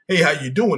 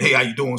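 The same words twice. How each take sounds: First: It sounds warm and sincerely interested. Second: It sounds quick and offhand, a passing hello.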